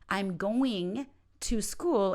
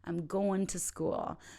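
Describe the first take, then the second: First: "Going to" is said in full. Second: "Going to" is reduced and linked together.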